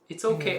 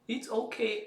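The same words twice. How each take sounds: First: It is said in a put-on furry voice. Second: It is said in a childish baby voice. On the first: "or like a furry voice" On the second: "like a baby voice"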